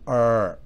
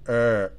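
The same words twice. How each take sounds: First: The R is a smooth English R. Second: The R is a smooth English R.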